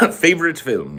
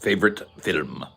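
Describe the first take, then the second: First: "Favorite film" said higher, British style; "Favorite film" in a mock British accent. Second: Said in the usual way. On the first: Shown as a demonstration.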